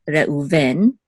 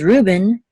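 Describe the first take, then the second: First: The stress is on the last syllable. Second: The stress is on the first syllable. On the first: "In Hebrew, the default is the accent mark is on the last syllable" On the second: "in English, I guess usually default is the accent mark is on the first syllable"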